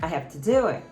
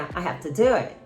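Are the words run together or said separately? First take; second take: run together; run together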